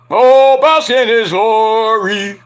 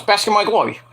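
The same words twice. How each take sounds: First: Slow, drawn-out, louder wrestler proclamation; grand catchphrase. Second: Said in the usual way. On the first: Pretend. Streamer performs the wrestling catchphrase, slow and grand. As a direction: boom it out like a ring announcer savoring it.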